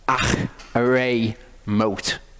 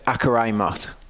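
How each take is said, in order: First: The middle consonant is a throaty H sound. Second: The middle consonant is a hard K sound. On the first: The speaker calls it right. "don't pronounce it as a K sound... pronounce it as a H sound" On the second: The speaker calls it wrong. "you think it says Akarai Mot"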